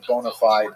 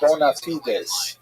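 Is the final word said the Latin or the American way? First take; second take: American; Latin. First: It is said with an American English pronunciation. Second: It is said with a Latin pronunciation. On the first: "that's how Americans say it" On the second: "what we would call in Latin"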